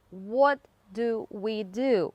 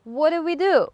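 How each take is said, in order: First: Slow 'What do we do' with every word apart; separated words. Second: Higher, louder 'What do we do' run together as one word; blended words. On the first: Teacher breaking the phrase down for learners, slow and separated. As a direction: say 'What... do... we... do' one full word at a time. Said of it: "last sound of one word blends". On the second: Teacher showing how natives link the phrase, blended and louder. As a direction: snap back to a linked 'What do we do'. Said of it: "making two words sound like one". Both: Shown as a demonstration.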